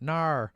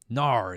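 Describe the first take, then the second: First: It is said in an Australian accent. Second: It is said in the reader's plain accent.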